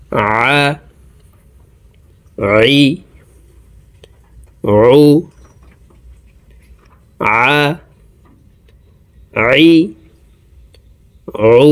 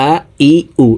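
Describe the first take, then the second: First: "আ, ই, উ" each begun with a constricted ayn from mid-throat. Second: "আ, ই, উ" with plain vowel onsets, no throat constriction; ayn said as hamza. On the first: Teacher models the correct ayn for viewers, "আ, ই, উ" from mid-throat, separately. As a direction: squeeze the middle of the throat to start each "আ, ই, উ". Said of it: "হলকের মধ্যখান থেকে উচ্চারণ করব". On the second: Teacher shows the common mistake, "আ, ই, উ" with plain hamza instead of ayn. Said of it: "আইনের উচ্চারণ হামজার উচ্চারণ করে থাকি". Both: Shown as a demonstration.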